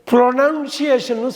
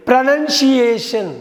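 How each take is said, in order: First: Slow "ப்ரொனன்சியேஷன்னு" with a full "pro" opening; wrong pronunciation. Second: "ப்ரொனன்சியேஷன்" slowly as "pra-nun-si-ay-shun", raised pitch; correct pronunciation. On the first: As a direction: stretch "ப்ரொனன்சியேஷன்னு", first syllable "pro". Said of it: "சொல்லக்கூடாது". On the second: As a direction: stretch out "ப்ரொனன்சியேஷன்", high, with "nun" in the middle. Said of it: "ப்ரொனன்சியேஷன்னு சொல்லணும்". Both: Shown as a demonstration.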